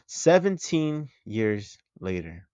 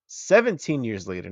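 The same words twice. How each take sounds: First: Slow, with "Seventeen" drawn out and weighted; stress on seventeen. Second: Said in the usual way. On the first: Shown as a demonstration. Vlogger insisting on the right number, slow emphatic stress on "Seventeen". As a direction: lean hard on "Seventeen", slowly. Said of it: "not fifteen".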